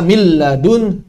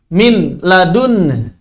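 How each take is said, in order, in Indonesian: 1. Bunyi n menyatu sepenuhnya menjadi bunyi l yang ditasydid. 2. Kata pertama berakhir dengan bunyi n yang jelas. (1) "seperti membaca mil ladun tanpa nun" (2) "nunnya sudah tidak dianggap"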